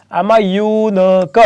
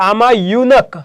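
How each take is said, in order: First: યુનક slowly split as yoo-na-ka; syllable by syllable. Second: Said in the usual way. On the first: Shown as a demonstration. Teacher showing the consonant sound at the start, યુનક sounded out slowly. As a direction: stretch the opening yoo of યુનક, then each syllable apart. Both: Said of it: "ઉચ્ચાર વ્યંજન થાય છે".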